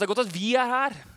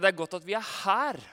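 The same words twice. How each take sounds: First: The stress falls on the word vi. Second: The stress falls on the word her. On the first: It is good that we are here, because we can help. "Nå kan vi hjelpe deg, om du vil. Det er den ene måten å lese setningen på" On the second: It is good to be here rather than where the others are. "At ikke vi er der de andre er"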